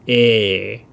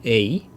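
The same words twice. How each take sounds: First: "a" as one long, held e; long vowel. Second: "a" as two vowels, gliding to i. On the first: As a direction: stretch "a" out with no i glide. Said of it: "just elongates this one". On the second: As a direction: say "a" with a separate i at the end. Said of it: "So instead of saying a". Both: Shown as a demonstration.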